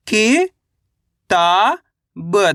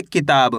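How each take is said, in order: First: "कि, ता, ब" as separate drawn-out syllables with long gaps; अक्षर-दर-अक्षर उच्चारण. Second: Said in the usual way. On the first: Shown as a demonstration. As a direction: sound out "कि", "ता", "ब" one at a time, stretched and rising. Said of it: "एक अक्षर का उच्चारण ही तो करना". ("कि, ता, ब" को अलग-अलग खींचकर बोलना) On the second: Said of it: "कैसे पढ़ेंगे?".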